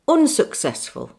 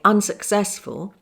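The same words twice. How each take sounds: First: The vowel is the rounded northern English 'oo' sound. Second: The vowel is the open standard southern British sound. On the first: "they'd say" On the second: "I'd say"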